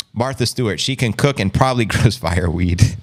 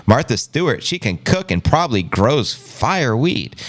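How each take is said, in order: First: Re-reading the line, breaking into a laugh; laughing through it. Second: Said in the usual way. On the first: Real, not acted. Rereading the chat joke to viewers, laughing. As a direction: laugh on "grows fireweed". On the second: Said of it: "repeats the chat line".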